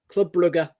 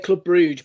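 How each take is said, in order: First: The name sounds like burger with an R. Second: The name does not sound like burger. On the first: The speaker calls it right. "like burger, but with an R" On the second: The speaker calls it wrong. "A lot of people will say Club Bruges, but no"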